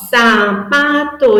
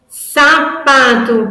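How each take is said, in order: First: Sapato said slowly with sa left out, only apato; first syllable dropped. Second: Very slow, louder, sapato with all syllables; full word in syllables. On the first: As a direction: say sapato but drop the sa. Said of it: "mas a tia vai tirar o sa". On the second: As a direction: say sapato whole, slowly. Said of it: "Eu tenho a palavra". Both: Shown as a demonstration.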